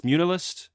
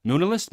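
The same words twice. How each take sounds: First: Munilist as "MYOON-uh-list", higher and questioning; second pronunciation attempt. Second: Munilist as "MOON-uh-list", higher and questioning; trying a pronunciation. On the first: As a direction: try Munilist with a "mew" start. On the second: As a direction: try Munilist with a plain "moo" start. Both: Shown as a demonstration. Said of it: "Did I say that right?".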